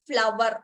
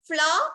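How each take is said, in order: First: The word has two syllables, ending in 'ver'. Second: The word is one long syllable, 'flaa'. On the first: The speaker calls it wrong. "Not ഫ്ലവർ" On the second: The speaker calls it right. "ഫ്ലാ ഫ്ലാ എന്നാണ് നമ്മൾ pronounce ചെയ്യേണ്ടത്"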